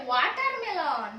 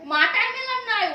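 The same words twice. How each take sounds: First: ওয়াটারমেলন said slowly, clear W at the start; slow correct pronunciation. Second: মাটারমেলন said loud and high as the wrong form; wrong word. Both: Shown as a demonstration. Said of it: "মাটারমেলন নয়, ওয়াটারমেলন".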